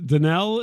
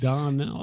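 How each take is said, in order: First: The first syllable is said softly, without stress. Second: The first syllable is said hard, with stress. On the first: The speaker calls it wrong. "I was soft playing the Don part there" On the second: The speaker calls it right. "you got to hit the Don hard"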